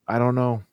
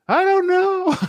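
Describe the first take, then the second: First: It is said calmly, without yelling. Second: It is yelled, in her odd delivery.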